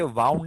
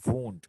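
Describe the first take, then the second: First: The vowel sounds like ow in cow. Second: The vowel sounds like oo in moon. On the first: The speaker calls it wrong. "इसे वाउंड नहीं पढ़ते" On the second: The speaker calls it right. "इसे पढ़ते हैं वूंड"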